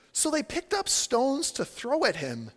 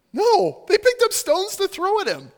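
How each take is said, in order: First: Slow, deliberate reading, raised pitch; measured verse reading. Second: High, loud, incredulous insistence; forceful, raised-pitch protest; emphatic rebuttal. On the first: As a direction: read it out slowly for effect. Reads verse, then contrasts it. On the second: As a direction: burst out to correct the cosy picture. Emphatic rebuttal of cute image. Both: Real, not acted.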